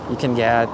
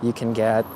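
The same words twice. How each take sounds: The two takes are said the same way.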